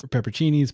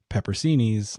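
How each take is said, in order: First: Higher, "pepperoncinis" ending like "cheenies"; ch pronunciation. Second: "pepperoncinis" ending like "seenies". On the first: Correcting himself in a story, offers "pepperoncinis" with a ch sound. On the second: Unsure of the word in a story, tries "pepperoncinis" with an s sound. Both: Real, not acted.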